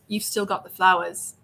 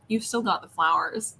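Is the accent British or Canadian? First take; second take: British; Canadian. First: It is said in a British accent. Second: It is said in a Canadian accent. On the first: The speaker calls it right. "it's British" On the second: The speaker calls it wrong.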